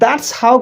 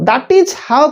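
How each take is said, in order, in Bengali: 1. 'That is' এক দ্রুত সিলেবলে সংক্ষেপ হয়ে যায়। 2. 'that is' শব্দ দুটোই পুরোপুরি বলা হয়। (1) "कहले जे कहिबा समय प्रोनाउंस टिके बढ़िया लागिबो आउ हमर कहिबार स्पीडटा आउरी बढ़िबो" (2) "दैट इज हाउ कहले भी ठीक हबो"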